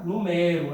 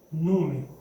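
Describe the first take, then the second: First: "Numero" said nu-MÉ-ro, open stressed E; stress on middle syllable. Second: "Número" said NÚ-me-ro, weak middle syllable; stress on first syllable. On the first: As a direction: land on MÉ in "Numero". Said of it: "A sílaba tônica é o mé". ("Numero" paroxítona, com força no MÉ) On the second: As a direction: land on NÚ in "Número". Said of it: "Se eu quiser falar número". ("Número" proparoxítona, com força no NÚ) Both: Shown as a demonstration.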